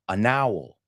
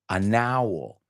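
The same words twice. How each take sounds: Both takes have the same delivery.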